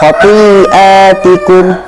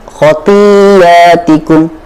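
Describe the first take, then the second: First: It has a glottal stop after the long i. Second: The glottal stop is replaced by a y sound. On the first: "hamzah yang berada di tengah-tengah" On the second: "bila kita ibdalkan"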